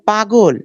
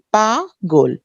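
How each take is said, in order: First: Said in the usual way. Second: পা-গোল in two beats, "paa, gol"; split into syllables. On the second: Shown as a demonstration. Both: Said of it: "দুইটা অক্ষর".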